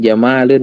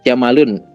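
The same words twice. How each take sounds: First: The vowel after the m is held long. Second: The vowel after the m is cut short. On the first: It means beautiful. The speaker calls it right. "Yang penting maknya panjang ya" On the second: It means camel. The speaker calls it wrong. "jangan sampai Jamalun. Aku unta banget"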